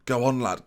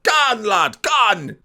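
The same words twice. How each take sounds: First: Said in the usual way. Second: Loud, high Geordie urging; broad mock Geordie. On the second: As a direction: shout it like a caricature Geordie fan. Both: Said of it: "That, that means Go on".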